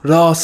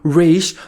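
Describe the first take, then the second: First: The name is said with an 's' sound. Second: The name is said with an 'sh' sound. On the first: The speaker calls it right. "That's the proper pronunciation in Arabic" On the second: The speaker calls it wrong. "they're just saying head in Arabic"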